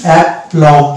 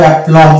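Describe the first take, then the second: First: অ্যাপ্লম said carefully, as the word is first read; saying the word aplomb. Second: অ্যাপ্লম said cleanly with the b silent; model pronunciation. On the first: Teacher reading the new word to viewers, carefully. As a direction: reads out অ্যাপ্লম slowly, letter by letter. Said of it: "তো এটার উচ্চারণ হবে". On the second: Teacher modelling the right pronunciation for viewers, clearly. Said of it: "সেটা উচ্চারণ করবো". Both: Shown as a demonstration.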